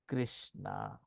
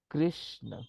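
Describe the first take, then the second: First: The final vowel is drawn out long. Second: The final vowel is kept short. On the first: It is the name of a different person. The speaker calls it wrong. "what happens is we tend to start saying Krishna" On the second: It is the intended divine name. The speaker calls it right. "So the actual word is Krishna"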